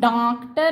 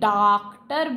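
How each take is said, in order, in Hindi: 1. पहला स्वर नाक से अनुनासिक है। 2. पहला स्वर मौखिक है, नाक की आवाज़ नहीं है। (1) "हम डॉक्टर नहीं" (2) "नाक से साउंड नहीं आ रहा है"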